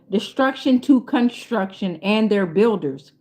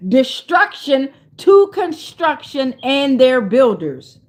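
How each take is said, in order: First: Said in the usual way. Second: "Destruction to construction and their builders" slow, every word punched; emphatic slogan. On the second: Shown as a demonstration. Relishing a line for a shirt, "Destruction to construction and their builders" stretched emphatically.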